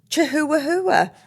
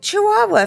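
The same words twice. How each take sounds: First: The h sounds in the word are pronounced. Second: The h sounds in the word are silent. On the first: "That's how I know how to spell it" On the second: "How did they get Chihuahua from"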